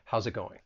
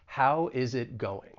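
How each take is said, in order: First: The words are contracted and linked together. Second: Each word is said separately and fully. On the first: "contract how is and just say how's" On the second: "pronounce each individual word"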